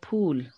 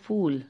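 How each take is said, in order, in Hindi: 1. यह शब्द aspirated p ध्वनि से शुरू होता है। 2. यह शब्द f ध्वनि से शुरू होता है। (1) "शुद्ध शब्द है फूल" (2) "थोड़ी नज़ाकत से उर्दू का टच देते हुए ... नीचे एक बिंदी लगा देते हैं"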